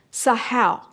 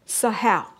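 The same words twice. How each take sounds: The two takes are said the same way.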